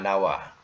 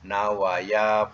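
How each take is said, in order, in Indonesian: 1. Kata itu berakhir pada 'wa' tanpa 'ya'. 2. Kata itu berakhir dengan suku kata 'ya' penuh. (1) "Yang betulnya nawa" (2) "ikut saja uja tu jangan dimatikan, jangan dibuang"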